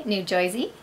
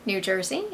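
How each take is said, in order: First: "New Jersey" said as "Noo Joizey" in a New Jersey accent; a quick New Jersey twang on "Jersey", like "Joizey". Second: Said in the usual way. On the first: Shown as a demonstration. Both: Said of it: "I had to recently do New Jersey".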